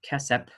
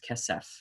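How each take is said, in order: First: The word ends with a hard p sound. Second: The word ends with a soft f sound. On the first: The speaker calls it wrong. "So it's not kesep" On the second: The speaker calls it right. "always going to be the soft pronunciation"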